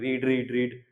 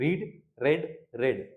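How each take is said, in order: First: All three words have a long 'ee' vowel. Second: The last two words have a short 'e' vowel. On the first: The speaker calls it wrong. "आप बोलोगे रीड रीड रीड" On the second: The speaker calls it right. "Second और third क्या है बिल्कुल same है या इनको एक तरीके से पढ़ा जाता है"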